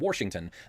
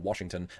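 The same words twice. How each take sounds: First: The first syllable is said with an added R. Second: The first syllable is said without an R sound. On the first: "as warsh and Washington" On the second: "or Washington"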